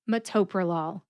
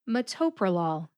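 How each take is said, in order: First: The main stress is on the second syllable. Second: The main stress is on the second syllable.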